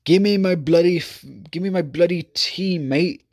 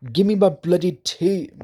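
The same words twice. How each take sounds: First: Mock British accent. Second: Higher-pitched put-on British accent; a playful fake British voice, pitched up; mock British accent. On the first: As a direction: ham up a British accent, pitched up. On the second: Vlogger mocking how British people swear, in a high British accent. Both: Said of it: "I need a British accent".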